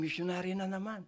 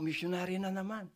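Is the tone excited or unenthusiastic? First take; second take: excited; excited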